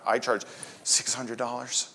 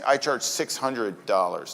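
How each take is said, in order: First: It is said unsurely without breathing out. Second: It is said confidently on an out-breath. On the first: The speaker doubts the price. The speaker calls it wrong. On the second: The speaker believes the price is fair. The speaker calls it right. "always breathe out when you're saying your pricing"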